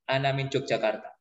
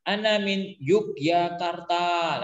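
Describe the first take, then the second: First: Said in the usual way. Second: "Yogyakarta" slow, as Yuu-ki-ya-kar-taa; long written-style reading. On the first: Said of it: "biasa aja". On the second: Shown as a demonstration. Teacher shows the awkward written reading, slow drawn-out "Yogyakarta". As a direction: stretch every long vowel in "Yogyakarta". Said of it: "Nah ini panjang kan?".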